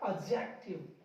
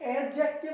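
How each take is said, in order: First: The d sound is silent. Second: The d sound is clearly pronounced. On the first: The speaker calls it right. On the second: The speaker calls it wrong.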